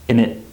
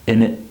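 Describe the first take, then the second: No difference in how they are said.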